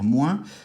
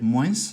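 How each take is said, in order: First: The word ends without any S sound. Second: The word ends with an audible S sound. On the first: "n'ont pas cet accent comme moi" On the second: "l'accent méridional vont le prononcer"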